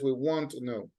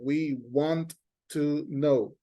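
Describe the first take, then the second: First: The words run together as one linked unit. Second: Each word is said separately with breaks. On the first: The speaker calls it right. "We don't make that separation of the sounds. What we do is that we have only one" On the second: The speaker calls it wrong. "if you are reading and I say like"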